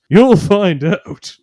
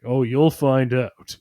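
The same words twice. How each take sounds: First: Slow, higher and louder prophecy; You'll find out, drawn out and booming; ominous caveman, louder. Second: Slow, hushed warning; ominous caveman. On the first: Paranoid caveman repeats warning. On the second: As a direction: say it slowly, like a dark secret. Paranoid caveman answers Grog. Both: Retold or imitated.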